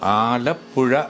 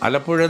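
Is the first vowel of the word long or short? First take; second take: long; short. First: The first vowel is held long. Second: The first vowel is cut short. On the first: The speaker calls it right. "ആലപ്പുഴ എന്ന് തന്നെ പറയണം" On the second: The speaker calls it wrong. "അവർ ആ ആയൊക്കെ അങ്ങോട്ട് cut ചെയ്തിട്ട്"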